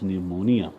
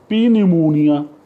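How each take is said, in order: First: The initial P sound is silent. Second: The initial P sound is pronounced. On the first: The speaker calls it right. "The P is silent. It is pneumonia" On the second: The speaker calls it wrong. "You would say uh, P pneumonia"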